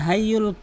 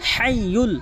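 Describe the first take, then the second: First: The h is light, from the front. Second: The h is deep, from mid-throat. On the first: The speaker calls it wrong. "অধিকাংশ লোকই কিন্তু এখানে ভুল বলে থাকে" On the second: The speaker calls it right. "বড় হা হলকের মাঝখান থেকে"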